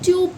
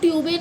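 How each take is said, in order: First: The word ends on the consonant sound. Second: The word ends with an extra vowel sound. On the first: The speaker calls it right. "ट्यूब पढ़ते हैं" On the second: The speaker calls it wrong. "ट्यूबे नहीं"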